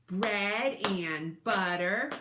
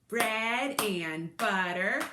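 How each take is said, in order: Both takes have the same delivery.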